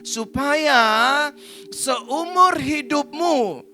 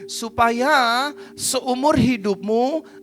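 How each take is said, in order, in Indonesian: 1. Dibaca pelan-pelan dan hati-hati. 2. Dibaca dengan kecepatan membaca yang normal.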